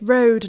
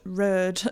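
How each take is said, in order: First: The vowel has a standard, non-local pronunciation. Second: The vowel has a local Hull pronunciation. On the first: This is the pronunciation school expected. The speaker calls it right. "my teacher, I believe, at the time wasn't from Hull" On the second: This is the local pronunciation school discouraged. The speaker calls it wrong. "not road"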